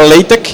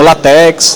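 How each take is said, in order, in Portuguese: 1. O X final é pronunciado como um som de k. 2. O X final é pronunciado como um som de ks. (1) "primeiro ele se pronuncia LaTeX" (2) "e não LaTeX"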